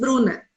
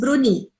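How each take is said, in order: First: The name ends with an open 'a' vowel. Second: The name ends with a closed 'ee' vowel. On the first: The speaker calls it right. "ele não diz Bruna" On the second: The speaker calls it wrong. "ele diz Bruni"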